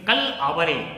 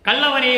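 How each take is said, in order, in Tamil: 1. இது இரண்டு சொற்களாகப் பிரித்துச் சொல்லப்படுகிறது. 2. இது ஒரே சொல்லாக ஒட்டிச் சொல்லப்படுகிறது. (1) "அதை நீங்க பிரிச்சு படிக்கணும்" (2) "அங்கே பாடலிலே கல்லவரேன்னு இருக்கும்"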